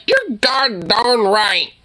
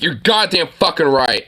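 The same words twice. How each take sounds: First: Slow, dainty "god darn right", lightly mocked; mock prissy version. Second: Firm "You're goddamn fucking right", with the weight on "goddamn"; tough version. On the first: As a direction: drag out "god darn" like a timid man. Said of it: "Don't be like". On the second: Shown as a demonstration. Streamer shows the candidate how to swear properly, firm and blunt. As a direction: say it like you mean it. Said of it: "Be like".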